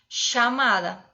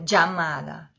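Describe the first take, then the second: First: The double L sounds like an 'sh'. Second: The double L sounds like a 'dj'. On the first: This is the most typical Argentine way. "como se fosse um X" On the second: This is how people speak in central Argentina. "É como se fosse um D J"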